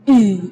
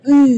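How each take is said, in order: First: The h sound is heavy, pushed from the chest. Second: The h sound is thin, coming from the throat. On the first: The speaker calls it wrong. "itu tidak boleh, itu keluarnya dari dada" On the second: The speaker calls it right. "makhraj huruf H itu adalah dari tenggorokan. Jadi keluarnya tipis"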